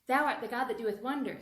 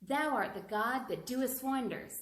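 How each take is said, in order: First: It is said at the fastest speed. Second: It is said at a moderate speed. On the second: "Try to say it faster and faster and faster"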